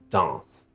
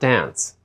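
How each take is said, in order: First: It is said with a French nasal vowel. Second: It is said like the English word dance. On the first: The speaker calls it right. "You have to say danse" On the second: The speaker calls it wrong. "it's not dance"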